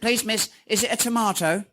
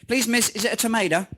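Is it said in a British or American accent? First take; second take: British; American. First: It is said in a British accent. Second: It is said in an American accent.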